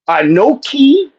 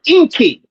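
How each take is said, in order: First: The word is said with three syllables. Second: The word is said with two syllables. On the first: This is the biblical Hebrew form. "I knew it that way from quote unquote bi- biblical Hebrew" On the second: This is the Choctaw form. "They pronounce the word Inki"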